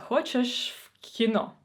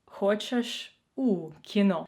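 First: "хочеш в кіно" with в after the vowel, said a bit slower as the bad example; "хочеш в кіно", presenting the mistake, slightly drawn out; wrong version. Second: "хочеш у кіно" with a clear у, spelled out slowly; slow, careful "хочеш у кіно" as the right form; corrected version. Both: Shown as a demonstration. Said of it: "подумайте і виправте на".

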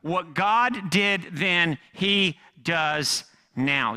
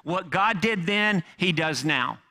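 First: Very slow, each word weighed; slow repeat. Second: What God did then stressed, slowing; emphatic point. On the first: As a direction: repeat it slower for emphasis. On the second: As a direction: punch the key line. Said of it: "most important point". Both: Shown as a demonstration.

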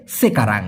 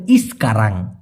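First: সেকারাং starting cleanly on se, no i before it; correct Malay pronunciation. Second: ইসকারাং said with an added i sound before the s; wrong Malay pronunciation. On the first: Teacher corrects students with the proper word. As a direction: correct form সেকারাং, said plainly. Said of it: "ওটা আসলে শুদ্ধ না". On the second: Teacher shows students the old mistaken pronunciation. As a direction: demo of the common mistake ইসকারাং. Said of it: "তারা বলে এরকম ইসকারাং". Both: Shown as a demonstration.

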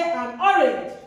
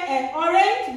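First: "an orange" with a clear n in an; correct article. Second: "an orange" with the n dropped, a bare "ay" before orange; wrong article. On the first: Teacher showing learners what we say, correct article. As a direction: sound the n of "an" before orange. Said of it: "we say". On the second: Teacher showing learners what we don't say, wrong article. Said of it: "we don't say". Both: Shown as a demonstration.

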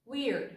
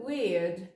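First: "weird" in an American accent, R sounded; American-style "weird". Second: "weird" in a British accent, R dropped. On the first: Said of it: "Si tú tienes un acento más americano". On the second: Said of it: "un acento un poquito más british". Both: Shown as a demonstration.

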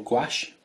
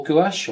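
First: Gouache said "gwash", in one beat; alternative pronunciation. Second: Gouache said "goo-ASH", rising and louder; alternative pronunciation. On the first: Painter offering another way to pronounce it, gouache as "gwash". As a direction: say gouache as a single syllable, "gwash". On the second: Painter unsure how it is pronounced, offering gouache as "goo-ASH". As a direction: say gouache in two beats, "goo-ASH", higher pitched. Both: Shown as a demonstration.

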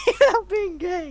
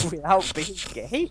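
First: Squeaky laughing echo, much higher; mock it in a high laughing voice; high mocking repeat. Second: Laughing as he repeats it; laughing question. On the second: Real, not acted. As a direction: ask it through a laugh.

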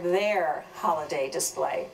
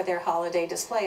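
First: "their" set apart and leaned on, then holiday display falls away; pointed emphasis on "their"; stress on "their". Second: Said in the usual way. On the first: Real, not acted. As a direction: lean hard on the word "their". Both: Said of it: "I have to emphasize the word".

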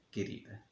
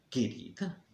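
First: Mock-flirty murmur, almost whispered; smitten. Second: Incredulous questioning, rising at the end; suspicious echo. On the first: Jealous man mimics José sweet-talking Maria, softly smitten. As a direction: melt softly into the endearment. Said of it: "todo derretido". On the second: Acted. Jealous man catches José's endearment, suspiciously questioning it. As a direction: throw the endearment back as a soft question.

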